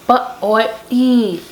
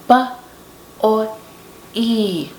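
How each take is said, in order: First: The sounds are said quickly, run together. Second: The sounds are said slowly and separately.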